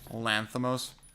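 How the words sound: The name is said with an American pronunciation. The speaker calls it wrong. "when Americans say Lanthimos"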